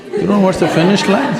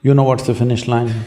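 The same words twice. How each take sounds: First: Higher, asked through a laugh. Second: Said in the usual way. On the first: Real, not acted. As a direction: tease it with a chuckle, pitched up. Same question repeated, laughing.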